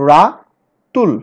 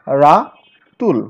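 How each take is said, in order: First: Ratul stretched very slowly as রা-তুল, a bit louder; slow, emphatic syllable demo; syllable split. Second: Ratul said very slowly as রা-তুল with a falling end; careful closing syllable demo; syllable split. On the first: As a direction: break Ratul into two slow beats. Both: Shown as a demonstration. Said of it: "ঠিক একইভাবে বাংলা শব্দকেও ভাঙব".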